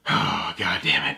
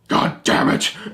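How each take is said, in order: First: It is said with a resigned sigh. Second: It is said quickly and angrily.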